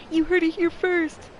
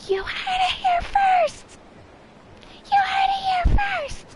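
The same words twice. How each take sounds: First: High, loud, slow proclamation; mock dramatic declaration; booming announcer cry. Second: Very high, loud, slow shriek; laughing screamed announcement; screaming with every fiber. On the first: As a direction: announce it like breaking news. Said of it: "my voice crawled out of my diaphragm". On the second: Retold or imitated. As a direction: scream it out with all you have. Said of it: "with every fiber of my being".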